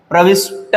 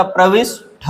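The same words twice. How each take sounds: First: प्रविष्ट ending in a plain 'ta'; no puff of breath on the ट of प्रविष्ट; wrong unaspirated ending. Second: प्रविष्ट ending in a puffed 'tha'; correct aspirated ending. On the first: Teacher rejects a common error, प्रविष्ट with unaspirated ta. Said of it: "नहीं होता". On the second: Teacher gives the correction, प्रविष्ट with aspirated tha. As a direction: end प्रविष्ट on an aspirated ठ sound. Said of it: "होता है". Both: Shown as a demonstration.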